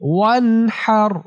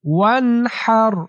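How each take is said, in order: First: The h sound comes from the mid-throat. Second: The same.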